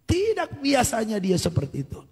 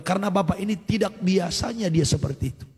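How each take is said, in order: First: "Tidak" stretched out and pitched high; stress on Tidak. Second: Said in the usual way. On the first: Real, not acted. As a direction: lean hard on a long, high "Tidak", then fall away. Repeats it for emphasis.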